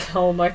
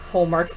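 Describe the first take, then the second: First: Homework. said through a laugh. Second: Said in the usual way. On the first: Shown as a demonstration. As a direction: laugh at the lie as you say Homework. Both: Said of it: "Such a lie".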